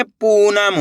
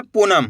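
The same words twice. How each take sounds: First: पूनम with the पू stretched long; slow model reading of पूनम, long first vowel; drawn-out vowel. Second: पूनम said quickly with a short u; quick पूनम, first vowel not held; short vowel misreading. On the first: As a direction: hold the oo in पूनम. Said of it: "खींच के पढ़ेंगे". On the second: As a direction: cut the oo of पूनम short, as in punam. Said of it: "ऐसे नहीं पढ़ना". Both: Shown as a demonstration.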